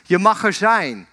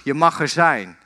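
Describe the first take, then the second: First: Mildly raised, positive call; father calling out. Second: Returning echo. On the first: Father calls something positive for his son, calling out. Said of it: "roept weer wat positiefs". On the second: The boy hears father's words return, light echo. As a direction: answer the call as its echo, pitched down. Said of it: "En hij hoort terug". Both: Retold or imitated.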